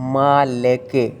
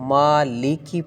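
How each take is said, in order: First: The word ends in an 'e' vowel. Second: The word ends in an 'ee' vowel. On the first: The speaker calls it wrong. "मालिके नहीं पढ़ना" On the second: The speaker calls it right. "मालिकी पढ़नी"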